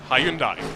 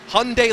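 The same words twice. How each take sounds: First: The name is said not rhyming with Sunday. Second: The name is said to rhyme with Sunday. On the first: This is how it is said elsewhere in the world. "in other parts of the world, it's Hyundai" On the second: This is the American way of saying it. "what the U S branch of this Korean manufacturer will tell you is it's Hyundai like Sunday"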